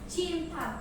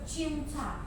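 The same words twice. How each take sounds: First: The word is articulated clearly and distinctly. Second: The word is articulated unclearly and indistinctly. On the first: The speaker calls it right. "Artikulasi yang benar" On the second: The speaker calls it wrong.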